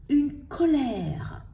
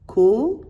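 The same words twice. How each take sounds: First: Said in the usual way. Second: "co-lè-re" in three separate beats, pauses between; teacher sounding out "co-lè-re" piece by piece; split into syllables. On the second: Shown as a demonstration. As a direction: break "co-lè-re" syllable by syllable, "co" loud and rising. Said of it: "Le R ne fait pas partie de la syllabe".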